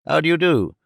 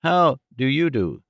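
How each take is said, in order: First: "do" stressed at the end of "How do you do?". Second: "How" stressed at the start of "How do you do?". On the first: Gentleman greets Missus Nickleby, stressing "do". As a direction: lean on "do", the last word. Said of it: "laying great stress on the last word". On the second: Second gentleman echoes the greeting, stressing "How". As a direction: push "How", leave "do" light. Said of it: "altering the emphasis". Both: A narrator's reading.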